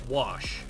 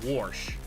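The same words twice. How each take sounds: First: The word is said without an added r. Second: The word is said with an added r. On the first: The speaker calls it right. "when you say wash" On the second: The speaker calls it wrong. "people pronounce it wash... you are taking a letter out and then you're adding two letters in"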